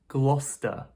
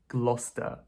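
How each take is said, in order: First: A middle chunk of the word is dropped. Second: The same.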